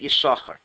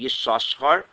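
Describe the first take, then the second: First: The name has only one s sound. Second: The name has two separate s sounds. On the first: "we read it as if there's only one sin" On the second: "It's supposed to be Yisachar"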